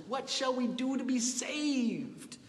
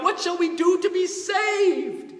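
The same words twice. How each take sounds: First: Soft, higher pleading question; hushed plea. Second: Much higher, loud anguished shout; crying out. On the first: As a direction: murmur it like a stricken listener. Question revival hearers ask. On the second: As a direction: cry it out like a desperate crowd. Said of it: "The people cried out". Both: Retold or imitated.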